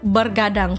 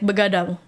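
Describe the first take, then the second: First: The first syllable is 'ber' with an r. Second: The first syllable is 'be' with no r. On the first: The speaker calls it wrong. "you've been saying that wrong" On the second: The speaker calls it right. "It's begadang"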